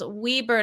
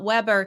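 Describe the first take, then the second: First: The first vowel is a long 'ee' sound. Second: The first vowel is a short vowel sound. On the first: The speaker calls it right. "It's ca- pronounced Weber" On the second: The speaker calls it wrong. "not Weber"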